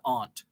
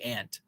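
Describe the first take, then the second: First: It is said with a broad 'ahnt' vowel. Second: It is said with the vowel of 'ant'. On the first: "not aunt" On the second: "I say ant"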